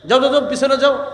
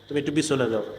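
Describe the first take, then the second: First: It is said in a rude, harsh tone. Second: It is said in a gentle, kind tone.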